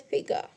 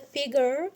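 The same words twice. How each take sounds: First: It is said with a British pronunciation. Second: It is said with an American pronunciation. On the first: "in British English it's pronounced as a figure" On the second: "in American English it's pronounced as a figure"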